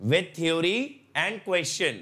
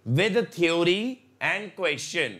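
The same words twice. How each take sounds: The two takes are said the same way.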